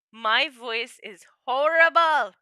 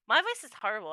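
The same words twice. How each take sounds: First: Slow, loud, drawn-out complaint; dramatic lament. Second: Said in the usual way. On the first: Shown as a demonstration. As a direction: wail it like a tragedy.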